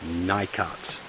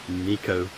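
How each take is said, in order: First: It is said the way Americans reportedly say it. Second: It is said the way the speaker recommends. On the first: The speaker calls it wrong. "to my American friends ... not Nikat" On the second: The speaker calls it right. "the correct pronunciation is Nico"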